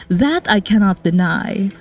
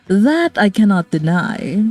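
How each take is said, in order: Both takes have the same delivery.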